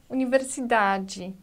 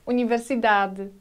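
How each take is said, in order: First: The final syllable sounds like a clear 'jee'. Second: The final syllable is soft and barely voiced. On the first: "in Portuguese from Brazil, the ending sounds like G" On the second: "in Portuguese from Portugal, the ending should be pronounced very delicate"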